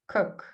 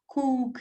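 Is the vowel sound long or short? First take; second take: short; long. First: The vowel is a short u sound. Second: The vowel is a long oo sound. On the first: The speaker calls it right. "It's more of a uh" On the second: The speaker calls it wrong. "it's not cook"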